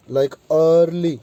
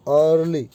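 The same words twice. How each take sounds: First: अर्ली with the first er held slowly and long; drawn-out er sound. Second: Said in the usual way. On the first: Shown as a demonstration. Teacher to students, slowly stretching the er in अर्ली. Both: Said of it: "यानी लंबी sound दे रहे हैं".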